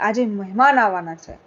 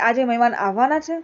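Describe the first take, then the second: First: It is said as an exclamation. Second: It is said as a question.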